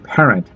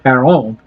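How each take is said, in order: First: The surname is said with English pronunciation. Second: The surname is said with French pronunciation. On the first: "if she's not French, it would just be Parent" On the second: "That's the French pronunciation"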